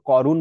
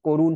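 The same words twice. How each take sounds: First: করুণ mispronounced as "KAW-run"; wrong open অ. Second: করুণ said as "KOH-run"; closed ও sound. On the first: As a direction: open the first vowel of করুণ to "aw". (করুণ, ভুল করে খোলা অ দিয়ে) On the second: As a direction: round the first vowel of করুণ to "oh". (করুণ, ও-এর মতো স্বরে) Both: Shown as a demonstration. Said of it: "এটাও ও হয়ে গেছে".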